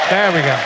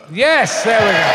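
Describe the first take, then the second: First: Said in the usual way. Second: "there we go" called out louder, higher; calling out. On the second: Real, not acted. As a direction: call it across the room. Calling out as the mic is fixed.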